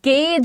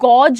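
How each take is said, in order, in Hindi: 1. स्वर 'day' में 'ay' जैसा सुनाई देता है। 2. स्वर 'saw' में 'aw' जैसा सुनाई देता है। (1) "इसमें हम यहां पर गेज" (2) "प्रोनाउंसिएशन गॉज नहीं होता"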